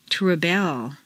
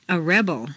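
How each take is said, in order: First: ReBEL, stressed on the second syllable. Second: REBel, stressed on the first syllable. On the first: Teacher models verb "rebel", second-syllable stress. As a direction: hit BEL in "rebel". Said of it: "to the second syllable". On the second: Teacher models noun "rebel", first-syllable stress. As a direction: hit REB in "rebel". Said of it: "first syllable for nouns". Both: Shown as a demonstration.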